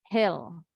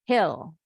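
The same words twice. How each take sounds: Both takes have the same delivery.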